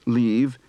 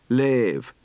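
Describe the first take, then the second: First: The vowel is an 'ee' sound. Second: The vowel is an 'ay' sound. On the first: "the shift from E to A" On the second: "the shift from E to A"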